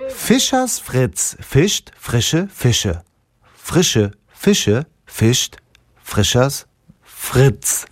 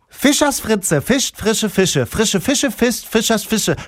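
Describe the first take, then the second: First: It is said at a normal speed. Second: It is said very fast.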